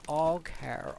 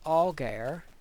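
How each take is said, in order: First: The middle consonant is a harsh, k-like sound. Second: The middle consonant is a soft g sound. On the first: "I've been calling it Alcar all this time" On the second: "From a modern English pronunciation would probably be Algar"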